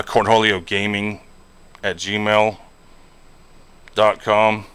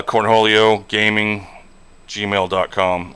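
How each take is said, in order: First: Said in the usual way. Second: Spells out the email slowly, word by word; slow and careful. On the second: Real, not acted. Repeating his email slowly for viewers to note. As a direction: say it slowly so they can write it down. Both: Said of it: "Uh, cornholio gaming gmail dot com".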